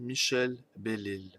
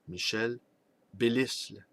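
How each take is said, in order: First: The surname is said with no s sound. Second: The surname is said with a hissed s.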